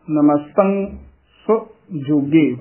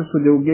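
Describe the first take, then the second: First: "ਸੁਜੋਗੇ" split as so, pause, joge; separated reading. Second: "ਸੁਜੋਗੇ" as one word; joined reading. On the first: Teacher shows the tradition's separate reading, split words. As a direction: detach both halves of "ਸੁਜੋਗੇ". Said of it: "ਵੱਖਰਾ ਪਾਠ ਕਰਨਾ ਹੈ". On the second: Teacher cites how many booklets print it, joined word. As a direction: run "ਸੁਜੋਗੇ" together without a pause. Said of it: "ਇਕੱਠਾ ਲਿਖਿਆ ਹੋਇਆ". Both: Shown as a demonstration.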